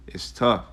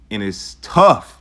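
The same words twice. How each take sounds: First: Said in the usual way. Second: "tough" drawn out slowly and said louder; slow emphasis. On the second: Real, not acted. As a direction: lean hard and slow into "tough". Stressing hardship, slow and loud.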